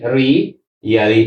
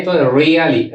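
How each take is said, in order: First: रियली drawn out slowly, lower; slow low model word. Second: Said in the usual way. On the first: Shown as a demonstration. (रियली धीमे और नीचे स्वर में)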